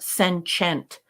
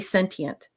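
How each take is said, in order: First: The middle consonant is said as a 'ch' sound. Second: The middle consonant has no 'ch' sound. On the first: The speaker calls it wrong. "but not sentient. There's no check mark or chew in sentient" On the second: The speaker calls it right. "you can say sentient"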